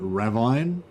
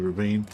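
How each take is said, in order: First: The word is said as its spelling suggests. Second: The word is said the common spoken way. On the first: This is how it was learned from reading books. "I always pronounced it ravine" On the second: This is how it is said on television. "being called ravine"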